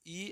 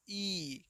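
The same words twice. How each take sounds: First: Brief ई, not stretched; short vowel. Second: Long, drawn-out ई; long vowel. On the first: Teacher contrasts the two vowels for pupils, short ई. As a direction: say ई short and soft. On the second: Teacher shows pupils the big vowel, stretched ई. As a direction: hold ई out slowly. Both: Shown as a demonstration. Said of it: "इसको थोड़ा late तक".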